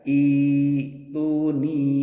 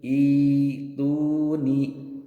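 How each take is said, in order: No difference in how they are said.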